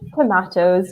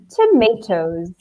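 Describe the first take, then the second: First: The word is said in a British accent. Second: The word is said in an American accent.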